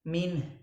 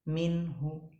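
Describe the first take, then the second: First: It ends silently, with no vowel heard. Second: A faint short vowel is heard at the end. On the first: "kalau misalnya ismam" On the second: "kalau bacaan raum berarti prakteknya gimana?"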